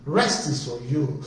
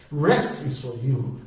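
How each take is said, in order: Both takes have the same delivery.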